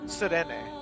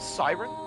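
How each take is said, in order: First: It is pronounced with a French sound. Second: It is pronounced like the English word siren. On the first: The speaker calls it right. "It's French" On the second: The speaker calls it wrong. "Not siren"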